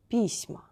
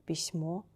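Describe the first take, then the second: First: Письма stressed on и, falling; stress on first vowel. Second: Письмо stressed on final о, rising; stress on last O. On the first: Teacher repeats the plural, first-vowel stress. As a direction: say PISma, weight on the start. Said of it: "first vowel should be stressed". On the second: Teacher repeats the singular, final stress. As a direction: say pisMO, lifting at the end. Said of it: "We change place of accent". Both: Shown as a demonstration.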